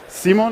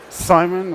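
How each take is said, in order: First: The name is said with a non-English pronunciation. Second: The name is said with an English pronunciation.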